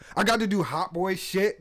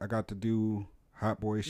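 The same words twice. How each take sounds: First: It is said in an excited, lively way. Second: It is said in a flat, unexcited way.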